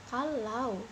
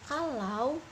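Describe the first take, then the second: Both takes have the same delivery.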